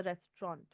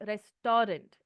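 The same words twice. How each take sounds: First: "restaurant" squeezed to REST-ront; correct pronunciation of restaurant. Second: "restaurant" as res-TAW-rent, heavy middle syllable; mispronounced restaurant. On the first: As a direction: say "restaurant" properly, middle vowel dropped: REST-ront. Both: Shown as a demonstration. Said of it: "It's not restaurant, it's a restaurant".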